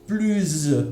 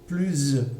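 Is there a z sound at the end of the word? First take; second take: yes; yes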